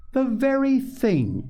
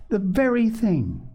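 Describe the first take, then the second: First: Slow, high-pitched delighted echo; tickled echo. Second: Put-on higher-pitched girlish delight; delighted exclamation. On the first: Missus Beebe echoing Polly's delight, tickled. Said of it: "tickled to death to see their delight". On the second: Polly finding a place for the flowers, delighted. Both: A narrator's reading.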